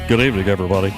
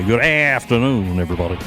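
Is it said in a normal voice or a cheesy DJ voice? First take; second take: normal voice; cheesy DJ. First: It is said in his normal voice. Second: It is said in a big, cheesy DJ voice.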